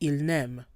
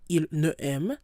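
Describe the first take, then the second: First: The words are run together in one flow. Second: The words are said separately, not run together. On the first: The speaker calls it right. "it's just going to flow" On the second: The speaker calls it wrong. "You don't pause"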